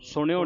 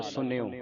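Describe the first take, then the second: First: ਸੁਣਿਓ with curled-tongue ṇ; mistaken retroflex n. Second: Soft ਸੁਣਿਓ with dental n, "sunio"; ਸੁਣਿਓ as "sun-yo", no retroflex. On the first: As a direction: show the misreading ਸੁਣਿਓ as "suṇio". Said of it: "ਨਾਣੇ ਦੀ ਆਵਾਜ਼ ਉਚਾਰਨ ਨਹੀਂ ਕਰਨੀ". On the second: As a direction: say ਸੁਣਿਓ softly, tongue on teeth for n. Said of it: "ਨੰਨੇ ਦੇ ਨਾਲ". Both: Shown as a demonstration.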